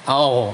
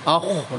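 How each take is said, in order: First: The throat sound is a soft gargle. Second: The throat sound is a harsh, pressed scrape. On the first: The speaker calls it right. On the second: The speaker calls it wrong.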